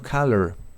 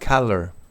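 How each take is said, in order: No difference in how they are said.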